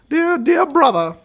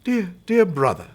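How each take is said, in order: First: It is spoken in a put-on feminine voice. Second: It is spoken in the reader's natural voice.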